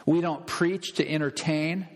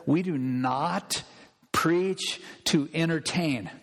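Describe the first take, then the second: First: Said in the usual way. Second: Slow, weighty NOT, then a pause; deliberate "We do NOT", stretched and set apart; emphatic restatement. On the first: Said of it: "Can I say that one more time". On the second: Real, not acted. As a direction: spell out "do not preach" slowly, word by word. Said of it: "Can I say that one more time to all of America?".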